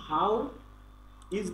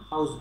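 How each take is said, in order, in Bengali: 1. দুটো শব্দই পুরোপুরি বলা হয়। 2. শব্দ দুটি সংকুচিত হয়ে একটি সিলেবলে দাঁড়ায়। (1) "হাউ ইজ বলতে পারতাম" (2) "বাট এখানে হাউস বলছি"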